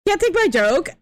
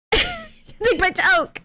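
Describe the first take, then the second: First: Said in the usual way. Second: High, slow, laughing repeat; high drawn-out joking voice. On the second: Pretend. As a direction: stretch it out high and teasing. Joke line repeated, drawn out.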